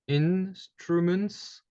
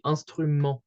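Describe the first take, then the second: First: The final t and s sounds are heard. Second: The final t and s sounds are silent. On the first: "In English, you hear all the letters in the word" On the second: "In French, you would say instrument. So basically, we can't hear those letters"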